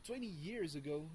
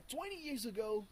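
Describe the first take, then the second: First: Said in the usual way. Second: Twenty years ago in a light British-like accent, pitched higher; a slip into a British-like accent on twenty years ago. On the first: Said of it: "where was the R?". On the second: Real, not acted. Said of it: "I switch into some kind of British-like accent".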